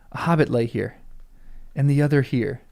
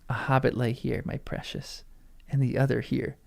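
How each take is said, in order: First: It is said in Aragorn's voice. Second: It is said in Gollum's voice.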